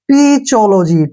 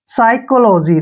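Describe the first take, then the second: First: It starts with a 'p' sound and 'ch'. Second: It starts with an 's' sound and 'k'. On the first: The speaker calls it wrong. "जो कि गलत है" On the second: The speaker calls it right. "देखिए साइकोलॉजी"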